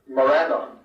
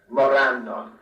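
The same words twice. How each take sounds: First: The final vowel is kept short. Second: The final vowel is drawn out long. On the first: "is certainly acceptable and probably best" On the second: "the long ends in names like Morannon"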